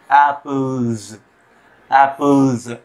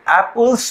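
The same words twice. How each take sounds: First: एप्पल्स slow, ending in a Z sound, not S; correct pronunciation. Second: एप्पल्स ending on a hard S; the mistaken एप्पल्स with a hissing S; wrong pronunciation. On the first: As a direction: say एप्पल्स with a buzzing Z at the end. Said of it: "एप्पल्स पढ़ने की कोशिश ना करें". (एप्पल्स को ज़ की आवाज़ से) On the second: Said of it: "पढ़ने की कोशिश ना करें". (एप्पल्स को स से, ग़लत तरीके से) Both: Shown as a demonstration.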